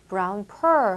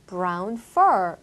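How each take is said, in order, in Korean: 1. 'fur'의 f 소리는 분명하지 않아요. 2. 'fur'의 f 소리는 분명해요. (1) "brown fur 하시면 안 되겠죠" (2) "이때는 F 발음을 확실하게 해주셔야 되겠죠"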